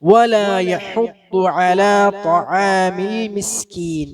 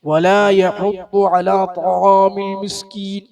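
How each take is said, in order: First: Only the t sound is made heavy. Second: Every sound in the phrase is made heavy. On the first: The speaker calls it right. "എന്നാണ് പറയേണ്ടത്" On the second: The speaker calls it wrong. "എന്ന് പറയരുത്"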